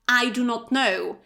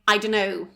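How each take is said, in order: First: Every word is said fully and separately. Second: The words are contracted and run together. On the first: "at school we learn" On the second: "in reality people say"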